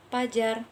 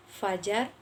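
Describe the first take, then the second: First: Fajar said as pajar, P for F; uneducated pronunciation. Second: Fajar with a clear F; educated pronunciation. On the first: Student demonstrates the uneducated way of saying fajar. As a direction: start the word with a P, pajar. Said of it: "Seperti contoh, tidak terpelajar". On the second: Student demonstrates the educated way of saying fajar. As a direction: start fajar with a proper F. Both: Shown as a demonstration.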